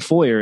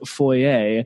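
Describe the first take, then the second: First: It is said with an American pronunciation. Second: It is said with a Canadian pronunciation. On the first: The speaker calls it right. "saying foyer instead of foyer" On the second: The speaker calls it wrong. "removing all the Canadian-isms from my accent"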